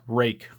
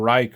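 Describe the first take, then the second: First: The name rhymes with make. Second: The name rhymes with like. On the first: This is the name's real pronunciation. The speaker calls it right. "It's rake" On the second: This is how an English reader would guess it. The speaker calls it wrong. "or Reich"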